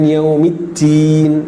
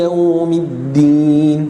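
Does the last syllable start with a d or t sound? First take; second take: t; d. First: The last syllable starts with a t sound. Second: The last syllable starts with a d sound. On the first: The speaker calls it wrong. "bukan yaumiddin" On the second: The speaker calls it right. "ad-din dengan huruf dal"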